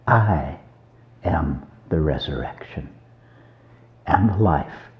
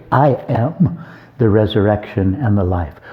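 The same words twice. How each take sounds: First: Hushed solemn quote. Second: Said in the usual way. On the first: Retold or imitated. Preacher quoting Jesus to Martha, hushed and solemn. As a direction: say it softly, with pauses, like a sacred line. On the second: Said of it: "implying, "Hey, I'm here".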